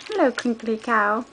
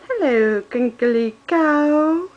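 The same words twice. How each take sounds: First: Said in the usual way. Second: Slow drawn-out sing-song; baby talk. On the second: Acted. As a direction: stretch cow out for toddler. Cooing toy name to baby.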